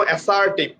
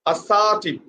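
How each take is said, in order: First: ASSERTIVE with a flat-A start, as-SAR-tiv; wrong pronunciation. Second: ASSERTIVE as a-SAA-tiv, weak start, long middle, falling; correct pronunciation. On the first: Teacher showing what does not exist, mispronounced as-SAR-tiv. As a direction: open ASSERTIVE on a clear "a" as in cat. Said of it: "There is no assertive". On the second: Teacher giving how it should be, stressed a-SAA-tiv. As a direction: stretch SA in ASSERTIVE and let TIV drop. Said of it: "The pronunciation should be". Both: Shown as a demonstration.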